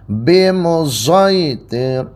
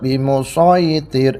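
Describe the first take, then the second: First: The S sound is blended toward a Z. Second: The S sound is emphatic and heavy. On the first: "Diismamkan sod ke za" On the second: "seperti biasa pakai shot"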